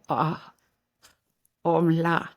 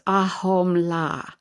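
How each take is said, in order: First: It is said with breathy sounds and clicks. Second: It is said plainly, without breath sounds or clicks. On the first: It is closer to the native pronunciation. The speaker calls it right. "there's some breath work and a couple of clicks in there" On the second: It is read the way English spelling suggests. The speaker calls it wrong. "if you were just to look at it in English"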